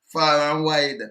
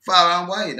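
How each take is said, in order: First: Said in the usual way. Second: Far and wide pushed out much louder; louder repeat. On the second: Real, not acted. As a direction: boom it out the second time. Host repeats louder for effect.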